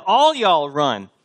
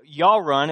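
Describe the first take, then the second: First: "All y'all run" said slowly, leaning on "All" before "y'all"; preacher correcting to plural "All y'all run", stressing "All"; Southern plural. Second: "y'all" said as one drawled Southern syllable, yawl; Paul rendered in Southern "y'all run", "y'all" drawn out. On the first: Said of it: "All y'all is plural". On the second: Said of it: "it doesn't come across in our English, but he says". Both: Shown as a demonstration.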